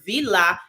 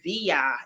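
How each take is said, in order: First: The name is said with an Italian pronunciation. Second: The name is said with a Spanish pronunciation. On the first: The bearer is Italian. "if you're Italian" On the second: The bearer is Spanish. "if you're Spanish"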